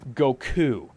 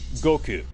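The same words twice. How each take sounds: First: The stress falls on the second syllable. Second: The stress falls on the first syllable. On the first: The speaker calls it wrong. "Emphasizing the U" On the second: The speaker calls it right. "in the original version, it's it's like um"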